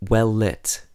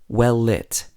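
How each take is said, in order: The two takes are said the same way.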